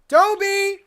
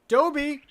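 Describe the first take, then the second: First: The name is screamed very loudly. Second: The name is said softly at normal volume. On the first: The speaker calls it wrong. "let's try it screaming" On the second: The speaker calls it right. "I have to stop screaming and I have to say it softer. Just talk normally"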